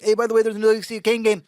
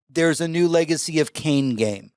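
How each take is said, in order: First: Very fast, higher throwaway mention; rushed aside, imitated. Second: Slow, deliberate restatement. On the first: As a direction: rattle it off like an afterthought. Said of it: "Could you slow that down". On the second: Retold or imitated. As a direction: spell out the news word by word. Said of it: "Could you slow that down and say".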